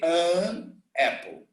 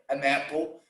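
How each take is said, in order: First: The two words are said separately. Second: The two words are linked together. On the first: The speaker calls it wrong. "I never say an apple" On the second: The speaker calls it right. "I pronounce together"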